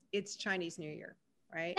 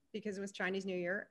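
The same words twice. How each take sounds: First: Very gently. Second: Said in the usual way. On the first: Retold or imitated. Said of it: "And so I just kind of very gently said". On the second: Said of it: "very gently said".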